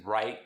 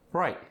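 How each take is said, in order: First: Said in the usual way. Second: South African "Right" with an oi vowel; South African accent. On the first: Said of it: "The long I sound". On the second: Shown as a demonstration. Teaching the South African long I, accented "Right". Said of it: "more of an oi sound".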